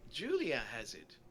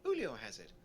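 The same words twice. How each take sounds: First: Julia said with a J sound, "JOO-lee-uh"; name put right as "JOO-lee-uh", Julia; corrected name. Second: Julio said with an H sound, "HOO-lee-oh"; mispronounced name. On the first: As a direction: say Julia the English way, ending in uh. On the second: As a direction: say Julio the Spanish way, ending in oh. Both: Real, not acted. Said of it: "I've been saying Julio the whole time".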